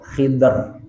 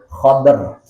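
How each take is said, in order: First: First vowel i, no second vowel: Khidr. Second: First vowel a, no second vowel: Khadr. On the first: "kho-nya dibaca kasrah, dotnya sukun" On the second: "kho-nya dibaca fathah, dotnya sukun"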